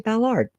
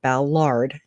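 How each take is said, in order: First: The name is said in a Cajun Louisiana way. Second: The name is said in a general American way. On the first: "because I'm a coon ass and we say" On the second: "I'm trying to say Ballard"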